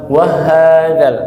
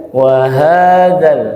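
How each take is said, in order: First: "wa hadzal" with the wa pitched up, wrongly; raised wa. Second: "wa hadzal" slow, wa level, ha lifted; low wa, rising ha. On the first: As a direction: lift the tune on "wa" of "wa hadzal". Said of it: "tidak dinaikkan intonasinya". ("wa hadzal" dengan intonasi wa dinaikkan) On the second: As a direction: keep "wa" low, then raise the long "ha" in "wa hadzal". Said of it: "wawnya sedikit diturunkan atau didatarkan". ("wa hadzal" pelan, wa datar, ha naik) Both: Shown as a demonstration.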